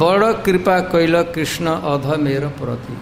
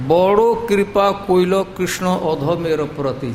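First: The line is said with a Hindi-like pronunciation. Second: The line is said with a Bengali pronunciation. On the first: The speaker calls it wrong. "एक तरह से मैं हिंदी जैसा बोल रहा हूँ" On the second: The speaker calls it right. "यदि बंगला बोलेंगे तो ऐसा कहना पड़ेगा"

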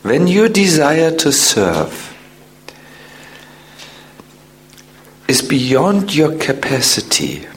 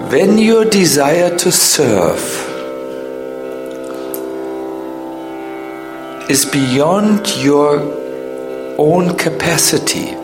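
First: It is said at a normal pace. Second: It is said slowly, as if for dictation.

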